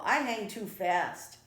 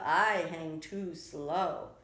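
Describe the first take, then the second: First: Lightly voiced rabbit, louder and brisk; a hint of a busy rabbit's excuse; hurried rabbit. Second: Slow, louder tortoise excuse. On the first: Rabbit Conejo's quick excuse. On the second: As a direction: draw the words out like a tortoise. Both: A narrator's reading.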